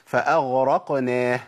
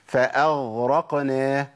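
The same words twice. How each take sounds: The two takes are said the same way.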